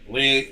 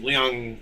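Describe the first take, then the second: First: It is said as one syllable, like 'Ling'. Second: It is said with a glide, like 'Lee-ahng'. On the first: The speaker calls it wrong. "my southern makes it sound like Ling" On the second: The speaker calls it right. "No, it's Liang"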